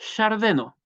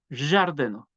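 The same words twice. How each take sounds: First: The word starts with a plain y sound. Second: The word starts with a d plus zh sound. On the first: The speaker calls it wrong. "tampoco es una yo, no es yardeno" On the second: The speaker calls it right. "Es yardeno"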